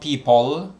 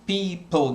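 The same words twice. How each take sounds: First: The E sound is short. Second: The E sound is held a bit long. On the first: The speaker calls it wrong. "not people" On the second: The speaker calls it right. "Keep your uh, E sound uh, a bit long"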